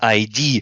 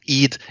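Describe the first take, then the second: First: It is said as two separate letters. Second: It is said as one short word. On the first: The speaker calls it wrong. "it's I D" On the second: The speaker calls it right. "it's not id"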